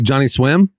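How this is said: The stress falls on the word Swim. "I hit the accent on the swim"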